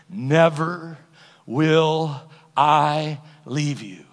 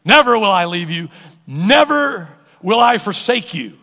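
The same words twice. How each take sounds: First: Very slow, word by word; slow solemn promise. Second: Loud, punched NEVER; emphatic promise. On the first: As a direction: draw out every word of the promise. Quotes God's promise word by word. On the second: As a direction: proclaim it, hitting each NEVER hard. Repeats the promise with force. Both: Shown as a demonstration.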